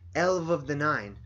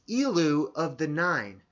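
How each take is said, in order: First: The first word ends in a v consonant. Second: The first word ends in an oo vowel.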